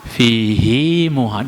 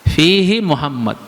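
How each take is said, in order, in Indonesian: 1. Vokal akhir fihi dibaca panjang. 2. Vokal akhir fihi pendek. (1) "Dua harakat" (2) "Harusnya begitu"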